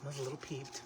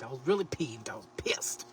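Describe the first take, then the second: First: Said in the usual way. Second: Whispered confession of anger. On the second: Real, not acted. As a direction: admit it in a whisper. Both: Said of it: "I was not a little peeved".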